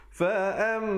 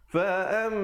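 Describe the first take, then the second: The two takes are said the same way.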